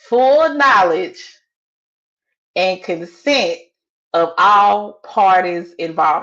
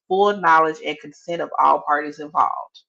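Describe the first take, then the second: First: It is said more loudly. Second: It is said at normal volume.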